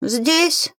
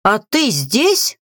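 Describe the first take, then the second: First: High, plaintive "здесь"; sad mumble. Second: Slow question rising on "здесь". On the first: Grimoire answering the crow, sad high mumble. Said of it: "грустно промычала". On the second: Crow to the grimoire, slow questioning. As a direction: stretch "здесь" upward as a question. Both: A narrator's reading.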